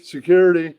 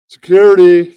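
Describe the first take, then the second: First: Said in the usual way. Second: Loud call, higher; calling security. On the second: Acted. Host shouts for security to remove the heckler. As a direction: yell it across the room for help.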